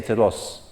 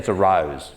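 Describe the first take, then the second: First: It is spoken with a Greek accent. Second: It is spoken with an Australian accent. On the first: "In Greece, they may say" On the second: "if you're Australian, you say"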